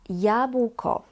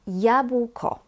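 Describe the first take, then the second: No difference in how they are said.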